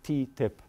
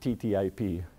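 First: The acronym is said as one short word. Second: The acronym is spelled out letter by letter. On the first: This is how Americans say it. The speaker calls it right. "remember to pronounce it TTIP" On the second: This is how the speaker's own community would say it. The speaker calls it wrong. "not as we would pronounce it"

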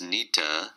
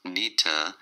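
First: The words blend into one reduced word, nita. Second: The same.

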